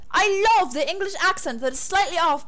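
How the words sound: It is read in a put-on British accent.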